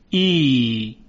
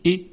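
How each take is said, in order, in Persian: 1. این مصوت کشیده است. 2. این مصوت کوتاه است.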